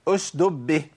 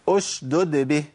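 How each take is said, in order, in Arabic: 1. تُحذف الدال الثانية وتُدغم في الباء. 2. يُنطق الدالان بوضوح قبل الباء. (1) "في كتير من الناس يقول ايه؟ ... جاب الساكنة وضيع المتحركة، ما ينفعش"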